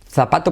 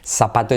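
First: The z is said like English th. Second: The z is said like an s.

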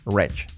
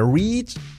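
First: The vowel sounds like 'e'. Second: The vowel sounds like 'ee'. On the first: The speaker calls it right. "la I como una E" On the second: The speaker calls it wrong. "Nada de reach"

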